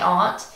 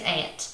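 First: It is said the way most people say it. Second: It is said with a West Virginia accent.

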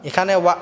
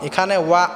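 Both takes have the same delivery.

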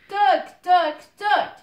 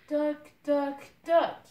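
First: It is said very loudly. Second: It is said a little louder.

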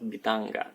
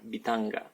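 The two takes are said the same way.

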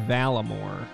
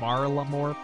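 First: No R sound follows the first vowel. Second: An R sound follows the first vowel. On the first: "I always want to say Valamore" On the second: "I know there's an R in there"

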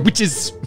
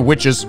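First: The word is said with dramatic intensity. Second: The word is said plainly, without intensity. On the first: The speaker calls it right. "You gotta say witches" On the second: The speaker calls it wrong. "You can't say witches"

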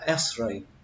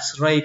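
First: The pitch falls on the word. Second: The pitch rises on the word. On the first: It is in an ordinary statement. "bình thường khi chúng ta nói trong những câu bình thường thì chúng ta nên dùng là X-ray" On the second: It ends a question. "ví dụ ở trong cái câu câu hỏi ấy, thì các bạn có thể nói là X-ray cũng được khi nó nằm ở cuối các câu đó"

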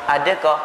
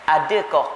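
Both takes have the same delivery.

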